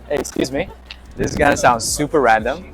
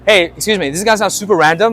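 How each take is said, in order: First: It is said slowly and calmly. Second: It is said fast and rushed.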